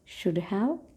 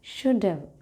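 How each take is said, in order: First: Both words are said fully and separately. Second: 'Have' is reduced and joined to 'should'.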